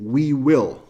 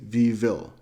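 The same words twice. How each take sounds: First: The first word begins with a w sound. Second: The first word begins without a w sound. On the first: The speaker calls it right. "instead of saying we will" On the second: The speaker calls it wrong. "they say we will, because they cannot start the word with this sound we"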